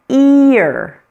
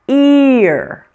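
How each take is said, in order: No difference in how they are said.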